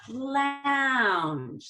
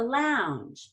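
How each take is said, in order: First: The pitch rises slowly, dragging the word out. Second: The pitch rises quickly and smoothly. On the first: The speaker calls it wrong. "that's dragging it out and you'll sound like a surfer" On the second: The speaker calls it right. "You do want to go up rather quickly"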